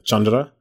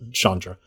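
First: The name is said with its original pronunciation. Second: The name is said with its common pronunciation. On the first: "the actual pronunciation would be, like" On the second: "Even Shivam calls her Chandra"

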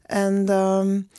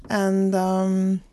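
No difference in how they are said.

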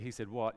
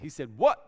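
First: It is said plainly, without surprise. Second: It is said with strong surprised disbelief. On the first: The speaker calls it wrong. "You can't just say" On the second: The speaker calls it right. "You have to say"

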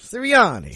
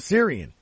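First: The name ends with 'anni', with four syllables. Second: The name ends after 'an', with three syllables. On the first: The speaker calls it right. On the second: The speaker calls it wrong.

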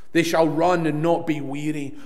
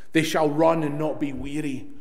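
Both takes have the same delivery.

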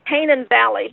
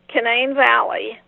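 First: Canaan is said the biblical way. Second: Canaan is said the local West Virginia way. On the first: This is how outsiders say the name. The speaker calls it wrong. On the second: This is how residents say the name. The speaker calls it right.

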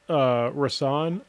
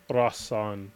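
First: The name is said in a simplified, anglicized way. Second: The name is said in its original native way. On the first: This is the version used so others can say it. "I pronounce it Rasan only because" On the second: This is the true form of the name. "you get my actual real name ... but it's Rasan"

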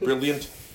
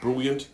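First: The first vowel is a plain short 'i'. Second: The first vowel sounds like 'oo'. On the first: It is the usual way of saying it. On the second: It imitates another person's way of saying it.

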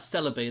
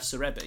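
First: The name is pronounced the English way. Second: The name is pronounced the Japanese way. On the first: "we have Celebi" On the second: "That's the Japanese pronunciation of Celebi"

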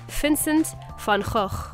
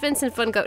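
First: The name is said closer to the original Dutch. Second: The name is said the usual English way. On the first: This is the authentic version. "the correct pronunciation is something along the lines of" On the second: This is the familiar everyday version. "like in school, they said"

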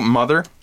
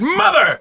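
First: The word is said flatly, without excitement. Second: The word is said loudly, as an exclamation. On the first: The speaker calls it wrong. "I said it wrong" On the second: The speaker calls it right. "because there's an exclamation point"

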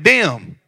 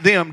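First: The word starts with a d sound. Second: The word starts with a th sound. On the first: The speaker calls it right. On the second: The speaker calls it wrong. "Not them"

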